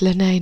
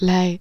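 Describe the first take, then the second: First: The name is said with two syllables. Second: The name is said with one syllable. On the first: The speaker calls it right. "it's Lanay" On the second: The speaker calls it wrong. "not Lay"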